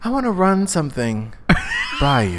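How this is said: It is said with ominous, unnecessary emphasis.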